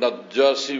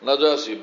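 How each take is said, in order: First: The middle consonant is held long and doubled. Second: The middle consonant is short and single. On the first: The speaker calls it wrong. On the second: The speaker calls it right.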